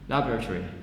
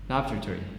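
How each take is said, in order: First: It is said quickly with a vowel dropped. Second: It is said quickly with a vowel dropped.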